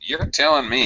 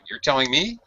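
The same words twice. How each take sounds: First: Stretched vowels with a high-then-low melody. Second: It rises at the end like a question. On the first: The speaker calls it right. "You kind of stretch the vowels" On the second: The speaker calls it wrong. "you said it like a question"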